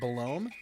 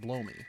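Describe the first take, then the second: First: It is said as one name, Belome. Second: It sounds like the words blow me. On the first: "I've always pronounced it Belome" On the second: "I can pronounce it as blow me"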